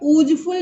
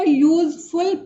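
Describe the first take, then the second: First: It begins with a plain vowel sound. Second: It begins with a 'y' consonant sound. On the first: The speaker calls it wrong. "यूजफुल नहीं पढ़ के" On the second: The speaker calls it right. "इसका उच्चारण consonant की तरह हुआ है"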